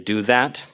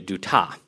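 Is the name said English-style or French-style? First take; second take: English-style; French-style. First: The name sounds like plain English words. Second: The name sounds like a French surname. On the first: The speaker links this to ordinary, less pretentious speakers. "The first is to say do that" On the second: The speaker links this to pretentious, graduate-school speakers. "mispronounce it as a French last name"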